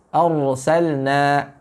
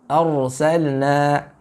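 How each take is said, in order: The two takes are said the same way.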